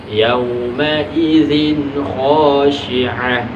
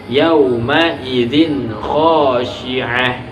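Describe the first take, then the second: No difference in how they are said.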